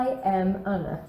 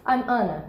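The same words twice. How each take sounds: First: "I am" as two separate words; lower, careful "I am", each word apart; full uncontracted form. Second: "I'm" run together as one syllable; natural native contraction "I'm"; contracted form. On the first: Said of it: "Não precisa falar". ("I am" por extenso, sem abreviar) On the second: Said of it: "os nativos vão abreviar naturalmente". (forma abreviada "I'm", natural) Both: Shown as a demonstration.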